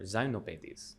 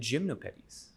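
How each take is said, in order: First: It is pronounced with French sounds. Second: It is pronounced with English sounds.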